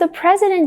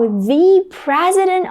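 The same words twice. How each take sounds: First: 'The' is said with a short, reduced vowel. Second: 'The' is said with a long 'ee' vowel. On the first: It is a plain, ordinary mention. "it's a regular conversation" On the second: The speaker is shocked and stresses which one. "you want to place emphasis on this word"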